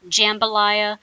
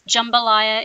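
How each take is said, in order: First: The first syllable sounds like the word 'jam'. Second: The first syllable does not sound like 'jam'. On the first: The speaker calls it wrong. "It's not jambalaya. please don't say that. It's not made out of jam" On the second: The speaker calls it right. "is the pronunciation for this dish"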